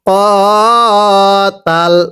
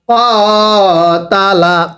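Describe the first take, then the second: First: The word ends with a consonant, vowel dropped. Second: The word ends with a final vowel. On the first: The reciter stops at this word. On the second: The reciter reads on without stopping.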